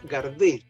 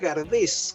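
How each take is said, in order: First: The name ends without any s sound. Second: The name ends with an audible s sound. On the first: This is how the name was actually pronounced. "se pronunciaba Gardé" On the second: This is how the name is spelled. "con ese final"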